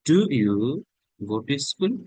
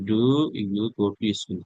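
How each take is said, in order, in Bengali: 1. 'do'-তে সুর ওঠে, তারপর 'you' নিচে নামে। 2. এটা সমতল, একই সুরে বলা হয়। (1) "এখানে ইন্টোনেশনটা উঠবে" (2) "যদি নর্মাল বলেন"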